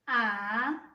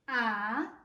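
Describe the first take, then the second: First: The pitch dips low, then rises slightly. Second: The pitch dips low, then rises slightly.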